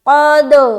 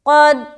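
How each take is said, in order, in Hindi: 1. अंतिम d उछलकर गूंज के साथ वापस आता है। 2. अंतिम d सपाट रुकता है, कोई उछाल नहीं। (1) "हमारी आवाज वापस हमारी तरफ आए।" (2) "तो कलकला नहीं हुआ, ... जो कि गलत है।"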